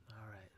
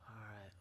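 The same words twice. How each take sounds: The two takes are said the same way.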